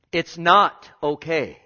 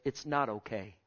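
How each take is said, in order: First: Slow and loud, stress on not; loud deliberate rebuke; slow emphatic repeat. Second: Soft, low and firm; hushed low warning; quiet firm statement. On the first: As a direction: press every word slowly. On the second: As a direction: say it quietly, dead serious. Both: Real, not acted.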